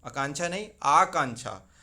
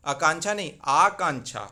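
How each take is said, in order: Both takes have the same delivery.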